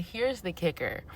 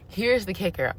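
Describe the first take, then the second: First: Soft setup. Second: Said in the usual way. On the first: Shown as a demonstration. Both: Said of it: "repeated for emphasis".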